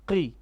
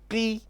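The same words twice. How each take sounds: First: The syllable keeps a slight heavy, full-mouth quality. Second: The syllable sounds flat and light, with no heaviness. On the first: The speaker calls it right. "You have to have an element of heaviness" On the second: The speaker calls it wrong. "That would be too much of flatness"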